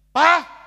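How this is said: The call is sharp and angry.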